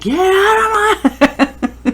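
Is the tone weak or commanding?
commanding. It is said firmly, in a commanding mom voice.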